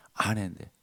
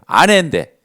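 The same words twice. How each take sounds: First: 아내인데 dropped low and quiet; soft echo. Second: 아내인데 said loud and pointed; emphatic repeat. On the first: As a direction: let 아내인데 fall away softly. (아내인데를 조용히 낮춰서) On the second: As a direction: hit 아내인데 hard. (아내인데를 크게 강조) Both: Shown as a demonstration.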